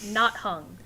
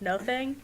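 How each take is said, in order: First: The name is split as not plus hung. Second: The name is split as no plus thing. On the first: The speaker calls it wrong. "to call it not hung every time" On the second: The speaker calls it right. "I'm pretty sure it's pronounced like no thing"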